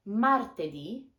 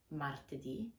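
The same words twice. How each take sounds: First: Martedì drawn out, louder, rising on ì; slow clear model. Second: Martedì repeated much softer; quiet repeat of martedì, stressed ì; soft echo. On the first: Teacher modelling martedì slowly for learners. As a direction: stretch martedì and lift the final ì. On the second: Teacher echoing martedì softly for learners. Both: Shown as a demonstration. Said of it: "we have".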